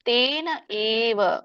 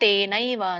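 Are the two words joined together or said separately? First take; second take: separate; joined. First: The two words are said separately, unjoined. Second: The two words merge into one joined form. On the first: "ಬಿಡಿಸಿದಾಗ" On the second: "ಕೂಡಿದಾಗ"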